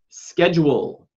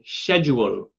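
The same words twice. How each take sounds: First: It is said with an American pronunciation. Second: It is said with a British pronunciation.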